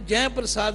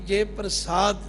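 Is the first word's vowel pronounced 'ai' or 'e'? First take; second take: ai; e. First: The first word has an open 'ai' vowel. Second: The first word has a close 'e' vowel. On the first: The speaker calls it wrong. "जै प्रसाद नहीं बोलना" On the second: The speaker calls it right.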